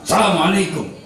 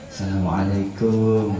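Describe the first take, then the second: First: It is said boldly at a high pitch. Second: It is said humbly at a low pitch. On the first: It is an open greeting to anyone. "dengan nada tinggi sambil mengangkat kedua tangan" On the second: It shows respect to a superior.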